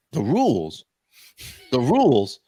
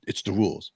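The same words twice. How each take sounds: First: Incredulous, punchy repeat of THE RULES; indignant echo. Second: Said in the usual way. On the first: Retold or imitated. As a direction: throw THE RULES back in disbelief, hitting RULES. Indignantly throwing clerk's words back.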